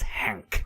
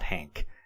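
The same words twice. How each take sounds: First: The name has a vowel unlike English Hank. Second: The name sounds like the English name Hank. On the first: The speaker calls it right. "It's Hank" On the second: The speaker calls it wrong. "I automatically want to say Hank, but it's not Hank"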